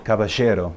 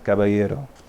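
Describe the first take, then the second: First: It is said with an Argentine Spanish accent. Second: It is said without an Argentine Spanish accent. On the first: "My Argentine mother would say caballero" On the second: "there's different ways of saying these words"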